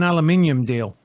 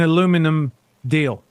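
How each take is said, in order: First: The word ends in '-nium', with five syllables. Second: The word ends in '-num', with four syllables. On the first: "it's spelled aluminium" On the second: "not an aluminium deal"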